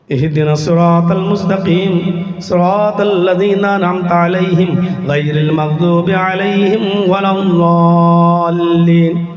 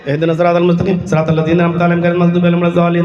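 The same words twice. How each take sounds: First: It is recited earnestly, like a heartfelt plea. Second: It is recited carelessly, as if in jest.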